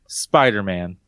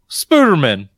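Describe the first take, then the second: First: The first syllable has an 'eye' vowel. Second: The first syllable has an 'oo' vowel. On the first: The speaker calls it right. "say it correctly" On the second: The speaker calls it wrong. "I'm sorry. Let me just say it correctly"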